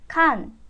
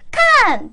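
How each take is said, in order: First: The falling tone is sharp but not loud. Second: The falling tone is shouted very loudly. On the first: The speaker calls it right. "큰 소리로 하는 게 아니라 날카롭게 하는 거예요" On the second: The speaker calls it wrong. "갑자기 목소리가 엄청 커지면서요. 칸! 이렇게 하세요. 정말 듣기 싫어 죽겠어요"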